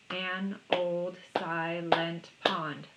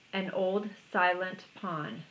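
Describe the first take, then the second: First: Put-on "An old silent pond" slowly, beat by beat; "An old silent pond" in five spaced, even beats; counted syllables. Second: Said in the usual way. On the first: Shown as a demonstration. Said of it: "Five syllables". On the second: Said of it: "Line number one was".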